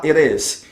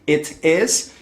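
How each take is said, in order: First: "it is" with the T flapped like a quick Portuguese R, "iR is"; American flapped T. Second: Said in the usual way. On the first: Shown as a demonstration. ("it is" com o T soando como R vibrante) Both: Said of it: "eles costumam falar mais com som de R".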